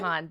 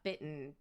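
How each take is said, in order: First: The name is said as Baton. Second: The name is said as Bitten. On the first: The speaker calls it right. "it is Baton" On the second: The speaker calls it wrong. "I always have Bitten like in my initial"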